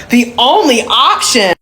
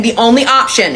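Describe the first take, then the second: First: "only option" slowed down and heavily stressed; incredulous emphasis. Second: Said in the usual way. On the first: Retold or imitated. Client echoes braider's refusal, "only option" slow and incredulous. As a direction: repeat "only option" slowly, punching both words in disbelief.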